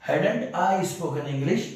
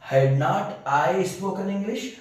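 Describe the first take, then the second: First: Had and not merge into one contracted word. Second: Had and not are said as two separate words. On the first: "हैड नॉट की जगह हेडेंट" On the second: "हैड नॉट हमारे मुंह में नहीं आ रहा है"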